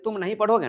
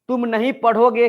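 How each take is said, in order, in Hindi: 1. इसे बिना किसी खास ज़ोर के एक समान बोला जाता है। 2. शब्द नहीं पर तेज़ ज़ोर होता है। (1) "नॉर्मल बात है" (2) "नहीं शब्द पर जोर पड़ रहा है"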